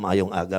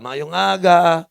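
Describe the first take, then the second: First: Said in the usual way. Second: Loud, drawn-out Bisaya greeting; slow, booming mock Bisaya accent. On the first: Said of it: "Ay, nasa, nasa rekto nga pala ako". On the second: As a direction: stretch it out in a hammed-up Bisaya accent. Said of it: "Pag Bisaya ka".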